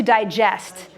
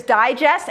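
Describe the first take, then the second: First: "digest" said die-JEST; "digest" with the weight on final JEST; stress on second syllable. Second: "Digest" said DIE-jest; "Digest" as a noun, front-stressed DIE-jest; stress on first syllable. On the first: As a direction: hit JEST in "digest", the verb. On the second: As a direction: hit DIE in "Digest", as in the magazine. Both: Shown as a demonstration. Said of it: "you're changing the emphasis".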